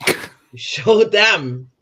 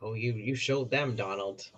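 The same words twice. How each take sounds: First: Slow, louder, higher mock praise; sarcastic drawn out. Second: Dry, quiet mock praise; sarcastic. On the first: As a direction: stretch it out to ridicule him. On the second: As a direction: needle him softly, unimpressed. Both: Real, not acted. Sarcastic jab at Donald's clip.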